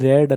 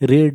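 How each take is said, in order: First: The vowel is a short 'e' sound. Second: The vowel is a long 'ee' sound. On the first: It is the past form. "रेड होची past form" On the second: It is the present form. "रीड होची root form बा present form"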